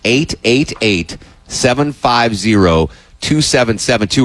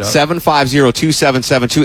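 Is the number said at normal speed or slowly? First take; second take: slowly; normal. First: The number is said slowly. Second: The number is said at normal speed.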